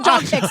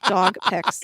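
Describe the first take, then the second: First: The words are said quickly and run together. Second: The words are said slowly and clearly. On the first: The speaker calls it wrong. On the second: The speaker calls it right.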